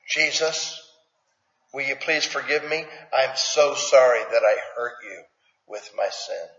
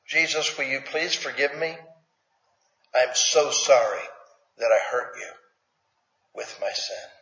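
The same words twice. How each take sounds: First: Sincere confession prayer. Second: Soft, humble plea that sinks quieter at the end; repeated sincere prayer. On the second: Preacher repeating the confession prayer for the church, soft and humble. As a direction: say it again gently, meaning it. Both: Shown as a demonstration. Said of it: "How about if we say that".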